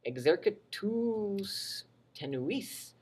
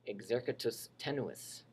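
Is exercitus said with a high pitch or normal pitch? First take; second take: high; normal. First: Exercitus is said with a raised, high pitch. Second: Exercitus is said with an ordinary, normal pitch. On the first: It means of the weak army. "this one is high-pitched" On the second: It means the weak army. "that one is just normal"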